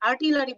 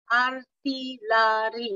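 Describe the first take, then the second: First: Said in the usual way. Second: আর্টিলারি broken into slow separate syllables; scanning speech demo. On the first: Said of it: "বলতে পারবে না". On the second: Shown as a demonstration. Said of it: "আর্টিলারি এভাবে বলবে".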